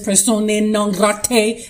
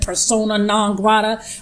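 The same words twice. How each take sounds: First: It is said in a standard pronunciation. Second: It is said in a Brooklyn accent. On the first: "I don't know if it's" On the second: "I'm from Brooklyn, so I'm giving it"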